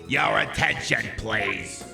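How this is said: It is said in a raspy, smoker's voice.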